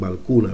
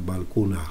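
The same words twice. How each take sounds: First: The word ends cleanly without a breathy h. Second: The word ends with a soft breathy h. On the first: The speaker calls it wrong. "se omite esa H que no se debería omitir" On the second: The speaker calls it right. "Con esa aspiración final"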